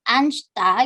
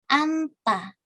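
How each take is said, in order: First: An s sound comes before the t. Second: No s sound comes before the t. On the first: The speaker calls it wrong. "Jadi bukan ansta gitu" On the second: The speaker calls it right. "hanya niennya saja yang dibaca"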